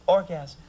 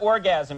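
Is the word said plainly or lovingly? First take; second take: lovingly; plainly. First: The word is said lovingly, with emotion. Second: The word is said plainly, without emotion.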